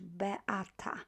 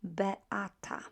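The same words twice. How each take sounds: First: The name is said with Polish sounds. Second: The same.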